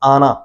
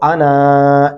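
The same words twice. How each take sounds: First: The final vowel is short, with no lengthening. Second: The final vowel is drawn out long. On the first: The speaker calls it right. "ऐसे ही पढ़ना है" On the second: The speaker calls it wrong. "ऐसे नहीं पढ़ेंगे"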